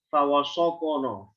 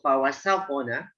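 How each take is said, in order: First: The fa, wa and sin sounds are thick. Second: The fa, wa and sin sounds are thin. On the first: The speaker calls it wrong. "fa-nya, wa-nya, sudah tebal semua" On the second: The speaker calls it right. "Fa, waw, sin, nun tipis"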